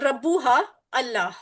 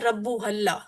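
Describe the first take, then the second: First: The words are said separately, not linked. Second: The words are linked into one run.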